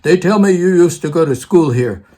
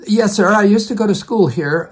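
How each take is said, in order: First: Rough imitation of a Russian accent. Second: Said in the usual way. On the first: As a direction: imitate an old professor with an imperfect Russian accent. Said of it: "in his Russian accent, I can't do it very well". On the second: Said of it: "And I said".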